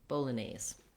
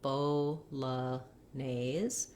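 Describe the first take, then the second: First: The word is said at a faster pace. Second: The word is said slowly. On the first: "begin to speed it up" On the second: "you can go slowly"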